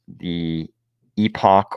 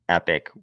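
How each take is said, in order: First: It is said differently, not like the word epic. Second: It is said exactly like the word epic. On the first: The speaker calls it right. "I think the other pronunciation is probably correct" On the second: The speaker calls it wrong. "I like to pronounce it Epic, which I believe is probably the wrong pronunciation"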